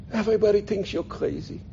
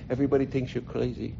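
First: High, soft crackly European voice; crackly old aunt. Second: Said in the usual way. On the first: Retold or imitated. Old aunt to nephew up close, crackly voice. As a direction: confide it in a little old lady's crackle. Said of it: "with her little crackly voice".

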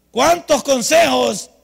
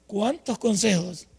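First: Slow, loud, higher "Cuántos" drawn out; preaching emphasis. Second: Said in the usual way. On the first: Acted. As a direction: hammer the question at the congregation. Predica con fuerza. (énfasis de predicador en "Cuántos")

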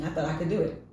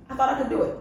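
First: Said in the usual way. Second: Said through a laugh, higher and louder; rueful laughing repeat. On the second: Real, not acted. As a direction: laugh the words out at yourself. Repeats line, second time laughing.

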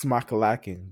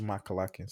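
First: Smakalacking with a plain S before the M; s sound at the start. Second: Schmakalacking with a SH before the M; SH at the start. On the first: Co-host giving the word's supposed pronunciation, smakalacking with plain S. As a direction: say smakalacking starting on a crisp S, not SH. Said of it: "I think it's pronounced smakalacking". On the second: Co-host showing their preferred way, schmakalacking with SH. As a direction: say schmakalacking, opening on a hushing SH. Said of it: "I like to say schmakalacking". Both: Shown as a demonstration.

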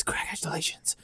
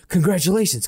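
First: Whispered, like a faint echo. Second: Two-headed man voice. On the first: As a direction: breathe it back as an echo. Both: Acted. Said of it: "Two voices behind you echo".

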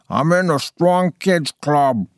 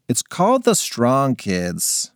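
First: Talking through pizza; mouth full. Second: Said in the usual way. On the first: Acted. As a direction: mumble round a mouthful. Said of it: "with her mouth full".

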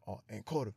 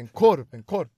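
First: Softly voiced, easy to miss; quiet mock order. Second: Much louder, emphatic repeat; loud imitated repeat. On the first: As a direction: imitate a boy ordering too softly. Boy's first, unheard sausage order. (tyst härmad beställning) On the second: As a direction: punch it out for someone who didn't hear. Boy repeats after not heard. (högt och tydligt härmat)

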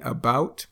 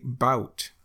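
First: Said in the usual way. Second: "bout" without the first syllable; clipped about. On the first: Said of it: "instead of saying about". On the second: Shown as a demonstration. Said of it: "we'll just say".

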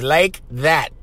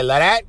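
First: Slow, separate words in "like that"; "like that" spoken slowly and lower, each word distinct; standard English pronunciation. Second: "like that" run together as "la'dat"; Pidgin pronunciation. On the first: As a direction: spell out "like that" with full k and th. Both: Shown as a demonstration. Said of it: "It means like that".

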